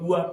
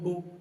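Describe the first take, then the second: First: The word ends with an extra 'a' vowel. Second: The word ends in a plain 'oo' vowel. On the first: This is the older pronunciation. "T W O को पहले टुआ टुआ टुआ बोलते" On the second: This is the modern pronunciation. "तो इस तरह जाकर के टू बना टुआ में से"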